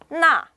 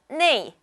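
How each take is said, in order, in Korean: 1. 이 단어는 'a' 모음으로 발음해요. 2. 이 단어는 'ei' 모음으로 발음해요. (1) "나라는 건 굉장히 사전적이고 교과서적인 발음입니다" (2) "네라고 발음하는 것은요, 좀 더 일상 회화에 걸맞는"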